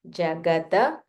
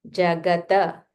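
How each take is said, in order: The two takes are said the same way.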